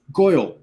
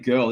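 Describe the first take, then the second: First: "Goyle" said as GOY-ul, gangster style; old-timey gangster twang. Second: Said in the usual way. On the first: Retold or imitated. Showing how he says girl, "Goyle" in old-timey gangster twang. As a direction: turn the vowel of "Goyle" into a punchy "oy". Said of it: "old-timey gangster twang". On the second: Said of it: "So instead of saying girl".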